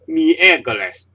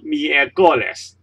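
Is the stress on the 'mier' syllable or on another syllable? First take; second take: mier; another. First: The stress is on the 'mier' syllable. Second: The stress is not on the 'mier' syllable. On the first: The speaker calls it right. "So you say miércoles" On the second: The speaker calls it wrong. "not miércoles"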